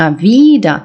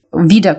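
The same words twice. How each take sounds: First: Wieder with a long, drawn-out iii; long vowel. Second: Wieder with a short first vowel; quick, short "Wieder". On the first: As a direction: stretch the first vowel of wieder. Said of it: "довге". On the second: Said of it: "коротке". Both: Shown as a demonstration.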